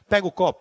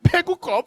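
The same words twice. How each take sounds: First: It is said in a plain, insistent voice. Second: It is said in a crying, whiny voice.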